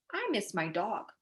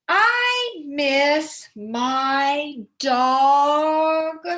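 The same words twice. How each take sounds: First: "I miss my dog." read short with a full stop; stopped with a period. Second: Very slow, stretched-out reading; drawn out. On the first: Teacher reading it right with a full stop. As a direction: end "dog" firmly and stop. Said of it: "put a period at the end". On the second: Teacher showing a run-on with no period, very slow. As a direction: drag the sentence on far too long. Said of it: "I went on a little too long". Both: Shown as a demonstration.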